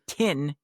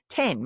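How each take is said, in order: First: It is said in a New Zealand accent. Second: It is said in a Tasmanian accent. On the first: "they say ten in uh New Zealand" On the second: "ten more in in Tasmania"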